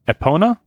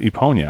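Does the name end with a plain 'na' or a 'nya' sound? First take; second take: na; nya. First: The name ends with a plain 'na' sound. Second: The name ends with a 'nya' sound.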